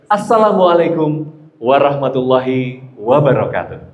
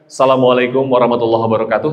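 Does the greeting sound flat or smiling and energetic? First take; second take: smiling; flat. First: It is said energetically, with a smiling voice. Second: It is said flatly, without energy or a smile. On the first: The speaker calls it right. "salam pakai power, pakai smiling" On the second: The speaker calls it wrong.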